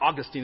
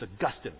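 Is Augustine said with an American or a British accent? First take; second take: American; British. First: The name is said in an American accent. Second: The name is said in a British accent. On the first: The speaker calls it wrong. "it's not Augustine" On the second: The speaker calls it right. "A little bit of British helps make it sound official too"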